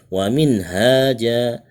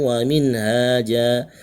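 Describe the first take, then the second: No difference in how they are said.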